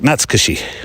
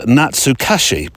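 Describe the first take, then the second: First: The word is said quickly, syllables run together. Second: The word is said slowly, syllable by syllable. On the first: The speaker calls it right. "Quite quick" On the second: The speaker calls it wrong. "if you look at the word and say it phonetically"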